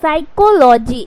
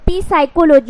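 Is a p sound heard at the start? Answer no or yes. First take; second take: no; yes. First: It starts with an s sound, no p. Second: It starts with a p sound before s. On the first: The speaker calls it right. "पी को क्या करना है guys, silent करना है" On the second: The speaker calls it wrong. "अगर पी उच्चारण करोगे"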